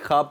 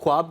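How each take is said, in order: First: No w sound follows the kh sound. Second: A w sound follows the kh sound. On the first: This is the technically correct reading. The speaker calls it right. "Technically ख्वाब पढ़ा जाता है" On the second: This is how people usually say it. The speaker calls it wrong. "हम उसको ख्वाब करके पढ़ते हैं"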